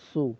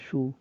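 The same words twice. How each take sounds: First: The consonant sounds like a clear 's'. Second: The consonant sounds like 'sh'. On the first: The speaker calls it right. "সু না, সু" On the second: The speaker calls it wrong. "একটু সু হচ্ছে"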